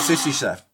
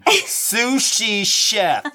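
First: The words are run together and unclear. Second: The words are articulated crisply and clearly. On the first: The speaker calls it wrong. "Let me say that again. I'm sorry" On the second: The speaker calls it right. "Watch my diction"

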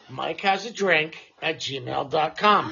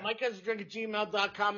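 First: It is said slowly and deliberately. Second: It is said at a quick pace.

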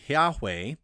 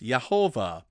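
First: The name is said with two syllables. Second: The name is said with three syllables. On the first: "You can do it with two syllables and say Yahweh" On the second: "or with three syllables"

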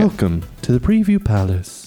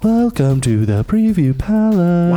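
First: It is said in a plain, normal voice. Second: It is said in a showy jingle style.

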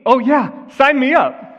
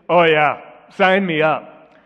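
First: It is said in a sincere tone. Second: It is said in a sarcastic tone. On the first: The speaker really wants to do it. "I don't mean" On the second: The speaker does not want to do it. "you don't have the spiritual gift of sarcasm like I do. Let me just give you an example"

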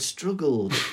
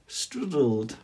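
First: The middle consonant is a G sound. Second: The middle consonant is a D sound. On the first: The speaker calls it right. "she couldn't say the word struggled" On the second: The speaker calls it wrong. "she'd say struddled with a D"

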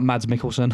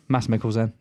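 First: The first name ends with a clear d sound. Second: The first name sounds like 'Mass', without d. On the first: The speaker calls it wrong. "Not Mads Mikkelsen" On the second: The speaker calls it right. "Mads is pronounced like Mass"

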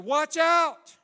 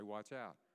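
First: It is said loudly and urgently. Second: It is said calmly, without urgency.

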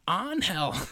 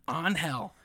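First: It is said much louder. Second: It is said at normal loudness.

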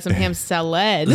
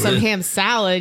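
First: The stress in salad is on the last syllable. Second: The stress in salad is on the first syllable. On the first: "you emphasize the last syllable in salad" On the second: "instead of saying it's some ham salad"

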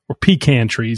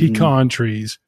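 First: Pecan is said the way Canadians say it. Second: Pecan is said the speaker's usual, non-Canadian way.

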